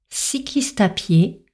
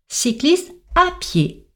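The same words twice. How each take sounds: First: No pause, with a slight fall throughout. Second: A pause after 'cycliste', then a sharp fall. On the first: A cyclist is seen pushing a bike while walking. The speaker calls it wrong. "Si on enchaîne tous les sons, sur une intonation légèrement descendante" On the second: Cyclists are told to go on foot. The speaker calls it right. "avec une pause derrière cycliste et une intonation de type injonctive, c'est-à-dire qu'on marque une forte descente"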